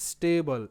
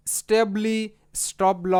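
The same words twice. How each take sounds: First: স্টেবল said smoothly as one word ending in -bল; the right way, স্টেবল said slow and smooth; correct pronunciation. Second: স্টেবলি said with the b and l split apart and a trailing i; mispronounced স্টেবলি, loud and split; wrong pronunciation. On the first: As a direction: say স্টেবল slowly and joined, no final i. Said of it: "স্টেবল এরকমটা হচ্ছে". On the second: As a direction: demo the wrong way, স্টপ ল with a broken-off l. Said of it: "এরকম sound কিন্তু হচ্ছে না". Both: Shown as a demonstration.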